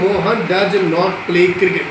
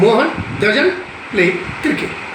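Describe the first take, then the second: First: 'Does not' is said as two full words. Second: 'Does not' is contracted into one word. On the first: The speaker calls it wrong. "हम ये नहीं कहेंगे" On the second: The speaker calls it right. "We have to learn conversation language"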